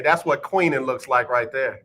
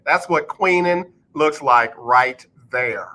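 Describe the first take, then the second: First: Said in the usual way. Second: Slow, spaced-out emphatic delivery; deliberate and drawn out, each phrase set apart; slow repeat. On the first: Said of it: "say it again slow". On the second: Shown as a demonstration. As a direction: spell it out slowly for the back row. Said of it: "I'm gonna say it again slow for the people in the back".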